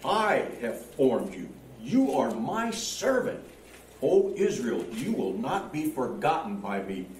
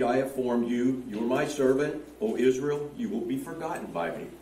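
First: It is read expressively, with strong feeling. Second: It is read plainly, without much feeling.

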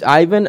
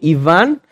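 First: The name is said with an English accent. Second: The name is said with a Latino accent.

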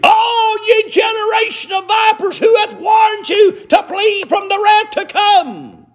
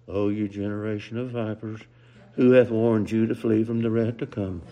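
First: It is proclaimed loudly and forcefully. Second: It is said softly and timidly.

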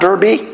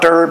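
First: The word ends in an ee sound. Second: The word ends with no final vowel. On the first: "It's not Derby" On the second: "It's not Derb"

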